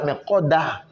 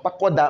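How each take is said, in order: First: The word ends with an audible h sound. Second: The word is cut off with no final h. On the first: The speaker calls it right. "Le H doit se sentir" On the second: The speaker calls it wrong. "à ne pas couper"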